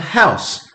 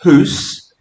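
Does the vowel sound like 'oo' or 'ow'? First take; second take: ow; oo. First: The vowel is an ow sound. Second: The vowel is an oo sound, rhyming with moose. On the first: This is the modern pronunciation. "to house" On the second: This is the older pronunciation. "This went from hoose"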